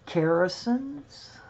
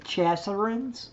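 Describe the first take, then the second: First: The word begins with a k sound. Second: The word begins with a ch sound. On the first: The speaker calls it right. "This is Kerrison's" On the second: The speaker calls it wrong. "I always say Chasserins, and that is wrong"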